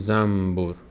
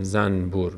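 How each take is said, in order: First: The nasal before b is said as m. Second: The nasal before b is said as n. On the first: The speaker calls it right. "نون رو که قبل از با قرار گرفته ما اون رو میم تلفظ میکنیم" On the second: The speaker calls it wrong. "نمیگیم زنبور"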